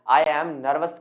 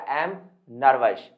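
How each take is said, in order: First: I and am are said as two full words. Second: I and am are reduced to one syllable. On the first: The speaker calls it wrong. "कहने की जगह" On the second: The speaker calls it right. "ये निकलता एम, एम nervous"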